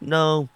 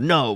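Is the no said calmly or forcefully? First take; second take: calmly; forcefully. First: It is said calmly. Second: It is said forcefully.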